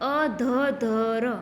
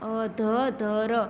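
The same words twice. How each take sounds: No difference in how they are said.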